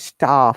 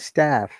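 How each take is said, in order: First: It is said in a British English accent. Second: It is said in an American English accent. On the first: "We say staff" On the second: "They say staff"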